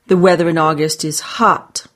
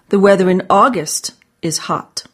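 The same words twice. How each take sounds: First: The stress is on the word hot. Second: The stress is on the word August.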